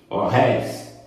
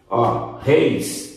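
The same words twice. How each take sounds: First: "réis" with an open é before the glide; open vowel. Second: "reis" with a closed ê before the glide; closed vowel. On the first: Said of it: "acento agudo". ("réis" com ditongo aberto, éi) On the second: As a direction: keep the diphthong êi closed in "reis". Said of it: "som fechado". ("reis" com som fechado, êi) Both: Shown as a demonstration.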